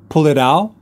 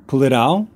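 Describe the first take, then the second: Both takes have the same delivery.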